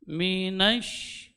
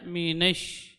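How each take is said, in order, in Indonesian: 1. Vokal setelah n adalah a terbuka. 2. Vokal setelah n condong ke e.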